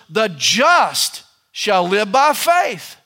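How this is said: The stress is on the word just.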